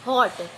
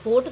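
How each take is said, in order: First: हॉट with an open short o, said slowly; the right reading हॉट, open ऑ; correct open o. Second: होट with a closed long o as in boat; the wrong reading होट, long closed ओ; wrong o sound. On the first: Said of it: "क्या पढ़ते हैं इसे?". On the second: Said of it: "होट तो पढ़ते नहीं है". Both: Shown as a demonstration.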